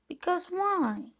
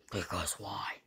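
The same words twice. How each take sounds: First: Said in the usual way. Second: "Because why?" whispered, voiceless and soft. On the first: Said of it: "Because why? (repeated whispered)". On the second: Shown as a demonstration. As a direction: hush it down to a breathy secret. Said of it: "Because why? (repeated)".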